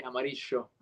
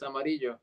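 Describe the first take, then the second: First: "amarillo" with the double L as "sh"; Buenos Aires "sh" sound. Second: Said in the usual way. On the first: Shown as a demonstration. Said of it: "there's a sh sound with this". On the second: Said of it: "but they'll say".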